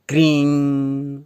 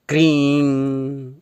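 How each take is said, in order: No difference in how they are said.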